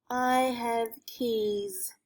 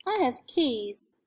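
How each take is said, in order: First: I have keys, spoken very slowly; sounding out words. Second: Said in the usual way. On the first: Shown as a demonstration. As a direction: stretch each word of I have keys. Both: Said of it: "sounded out".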